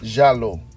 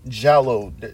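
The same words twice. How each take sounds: First: The word is pronounced in an Italian way. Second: The word is pronounced in an anglicized way. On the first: The speaker calls it right. "That's how they pronounce it" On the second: The speaker calls it wrong. "I'm not even saying it correctly"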